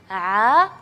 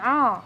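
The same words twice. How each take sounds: First: The sound comes out cleanly through the mouth. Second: The sound is pushed out through the nose. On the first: The speaker calls it right. "seharusnya bacanya A" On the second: The speaker calls it wrong. "dibacanya A. Uh, jadi mengalihkan angin itu ke rongga hidung"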